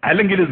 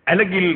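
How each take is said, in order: Both takes have the same delivery.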